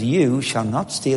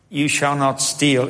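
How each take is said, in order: First: It is said as a reassuring promise. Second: It is said as a stern order.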